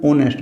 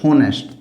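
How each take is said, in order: First: "ऑनेस्ट" starting straight on the o vowel; silent H. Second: "होनेस्ट" with an audible h at the front; wrong H sounded. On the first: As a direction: say "ऑनेस्ट" with no h sound. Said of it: "silent है, इसको बोलेंगे". ("ऑनेस्ट" में ह silent) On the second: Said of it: "तो गलत हो जाएगा ये". ("होनेस्ट" में ह बोलकर गलत उच्चारण) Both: Shown as a demonstration.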